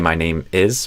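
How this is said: There is a pause between 'name' and 'is'. "with a pause"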